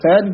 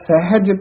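First: The h sound is weak and faint. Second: The h sound is clearly pronounced. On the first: The speaker calls it wrong. "ਹਾਹਾ ਜਿਹੜਾ ਹੈ ਉਹ ਫਿੱਕਾ ਜਿਹਾ ਪੈ ਜਾਂਦਾ ਹੈ" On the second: The speaker calls it right. "ਹਾਹਾ ਜਿਹੜਾ ਹੈ ਉਹ ਉਚਾਰਨ ਸਹੀ ਕਰਨਾ ਹੈ"

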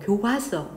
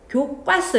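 First: The second syllable has a plain consonant. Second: The second syllable has a tensed consonant. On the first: The speaker calls it right. "이렇게 해요" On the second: The speaker calls it wrong. "이렇게 하면 안 되고요"

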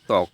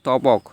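First: No consonant is heard after the 't'. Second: A consonant is heard after the 't'. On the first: The speaker calls it right. "এখানে ব উচ্চারণটা হবে না" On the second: The speaker calls it wrong. "আমরা কি বলি তপক না"

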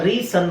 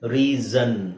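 First: The middle consonant is a hissing s. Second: The middle consonant is a buzzing z. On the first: The speaker calls it wrong. "ಅವಾಗ ರೀ ಸನ್ ಆಗುತ್ತಾ, ಇಲ್ಲ" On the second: The speaker calls it right. "ಎರಡು ಸ್ವರಗಳ ನಡುವೆ ಎಸ್ ಬಂದಾಗ ಅದು ಸಿಕ್ಕಾಕೊಂಡಂಗಾಗುತ್ತೆ"

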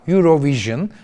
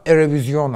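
First: It is pronounced the English way. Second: It is pronounced the French way. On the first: "İngilizce okunuşuyla" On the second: "Fransızca okunuşuyla"

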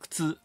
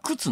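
First: The first vowel u is devoiced. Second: The first vowel u is fully voiced. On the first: This is the standard Tokyo pronunciation. "頭の「く」が無声" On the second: This is the Kansai pronunciation. "関西ではね、あれは靴なんですよ"

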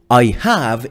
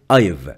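First: Both words are said in full. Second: The words are contracted into one syllable. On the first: "I have is I've" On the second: "We can say I've"

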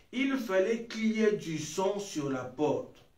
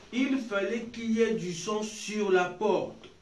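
The two takes are said the same way.

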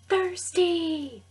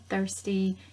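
First: The word is said loudly. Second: The word is said at normal volume. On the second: "You can say it like this one time"

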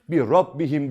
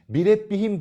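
First: The r sound is heavy and thick. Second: The r sound is light and thin. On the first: The speaker calls it right. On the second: The speaker calls it wrong.

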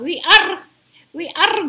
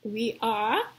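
First: The R sound is strong and rolled. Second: The R sound is soft and light. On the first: The speaker calls it wrong. "jangan bilang we are going around. Jadi aneh dengarnya" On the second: The speaker calls it right. "Dilembutin aja R-nya. Jadi seperti we are"

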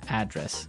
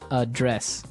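First: The stress falls on the first syllable. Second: The stress falls on the second syllable. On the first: It is a noun: the place where someone lives. "And there the stress is on the first syllable" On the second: It is a verb: to deal with a problem. "So the verb address has the stress on the second syllable"

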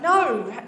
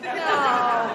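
First: It sounds bright and upbeat. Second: It sounds flat and discouraging.

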